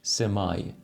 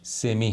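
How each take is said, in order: First: The word ends with an 'eye' sound. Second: The word ends with an 'ee' sound. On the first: This is the British form. "بریتیش سمای" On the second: This is the American and more common form. "تلفظ امریکن و کلن معمولترش سمی هست"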